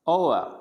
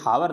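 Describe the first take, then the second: First: The word begins with a vowel sound. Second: The word begins with an h sound. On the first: The speaker calls it right. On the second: The speaker calls it wrong.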